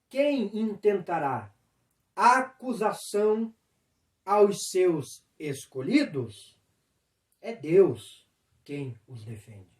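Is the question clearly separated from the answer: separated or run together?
separated. The question stops before a calm answer. The speaker calls it right. "eu vou falar o certo"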